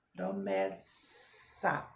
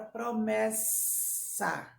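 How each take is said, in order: First: "promessa" stretched slowly, the ss drawn out as a long snake hiss; much lower, slow "promessa" with a long sss. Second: Said in the usual way. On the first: Shown as a demonstration. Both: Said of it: "olha o sonzinho da cobra no final".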